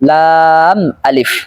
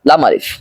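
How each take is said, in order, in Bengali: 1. বর্ণের নামটি সতর্ক, প্রমিত ভঙ্গিতে বলা হয়। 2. বর্ণের নামটি সাধারণ, অযত্নের ভঙ্গিতে বলা হয়। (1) "সঠিক উচ্চারণ হলো লাম আলিফ।" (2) "এখানে অনেকেই ভুল করে বলে থাকে লাম আলিফ, এটা ভুল উচ্চারণ।"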